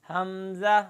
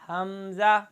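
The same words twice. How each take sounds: The two takes are said the same way.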